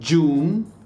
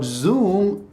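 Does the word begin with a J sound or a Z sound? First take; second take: J sound; Z sound. First: The word begins with a j sound. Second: The word begins with a buzzing z sound. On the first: The speaker calls it wrong. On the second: The speaker calls it right.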